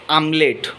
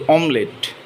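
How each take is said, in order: First: "omelette" said as AM-late; mispronunciation. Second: "omelette" said as OM-let; correct pronunciation. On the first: Teacher showing what people say, "omelette" as amlet. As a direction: open "omelette" with an ah sound. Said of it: "Here people most often say". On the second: Teacher correcting viewers, "omelette" as omlet. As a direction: open "omelette" with a rounded o. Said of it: "we don't have to use a". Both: Shown as a demonstration.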